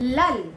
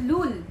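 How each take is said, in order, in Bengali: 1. এই স্বরধ্বনিটি খোলা 'ah' ধ্বনি। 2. এই স্বরধ্বনিটি গোলাকার 'oo' ধ্বনি। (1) "লাল, নট লুল" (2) "লুল বলবেন না"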